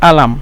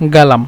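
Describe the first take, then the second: First: The word starts with a glottal stop. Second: The word starts with a g sound. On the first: This is the Egyptian form. "মিশরীরা বলে আলাম" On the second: This is the Saudi regional form. "সৌদিরা বলে গালাম"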